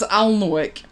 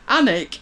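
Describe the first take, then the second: First: It is said with an L sound. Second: It is said without an L sound. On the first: "I was given a snooty look for pronouncing Annick as Alnwick" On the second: "I was given a snooty look for pronouncing Annick as Alnwick"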